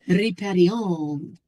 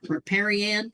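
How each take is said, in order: First: It is said in a French accent. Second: It is said in a rural American accent.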